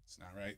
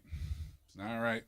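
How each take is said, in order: First: Muttered. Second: Slow. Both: Acted.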